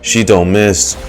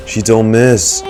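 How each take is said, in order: Both takes have the same delivery.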